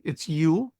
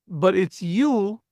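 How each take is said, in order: First: Said in the usual way. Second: Slow, falling weight on "you" to mean plural; stress on you. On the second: Shown as a demonstration. Teacher stressing "you" to the class, slow emphasis. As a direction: lean on "you" as a whole group. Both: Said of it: "second plural".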